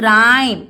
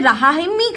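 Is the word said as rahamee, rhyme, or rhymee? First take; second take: rhyme; rahamee. First: It is one syllable with no final vowel. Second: It has a sounded h and final ee. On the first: The speaker calls it right. "इसका pronunciation क्या होगा?" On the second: The speaker calls it wrong. "क्या हम इसे रहामी करेंगे? No"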